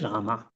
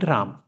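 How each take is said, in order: First: The word ends with a final a vowel. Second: The word ends on the m sound. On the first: This is the Sanskrit form. "In Sanskrit, it's a Rama" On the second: This is the Hindi form. "In Hindi, you call it Ram"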